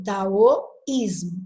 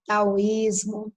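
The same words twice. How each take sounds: First: Taoísmo drawn out slowly, syllables apart; slow demo word. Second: Said in the usual way. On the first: Shown as a demonstration. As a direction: dwell on each syllable of taoísmo. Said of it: "antes desse i, eu tenho um ditongo". (taoísmo bem devagar, sílaba por sílaba) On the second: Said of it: "Eu tenho taoísmo".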